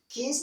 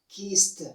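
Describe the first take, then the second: First: The ending is not a t sound. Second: The ending is a t sound. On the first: The speaker calls it wrong. "Rather to say kissed" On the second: The speaker calls it right. "That is T sounds"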